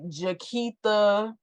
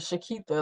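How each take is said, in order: First: The name begins with a J sound. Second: The name begins with an SH sound. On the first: The speaker calls it wrong. "You ain't see no J" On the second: The speaker calls it right. "it's spelled exactly how it's supposed to be"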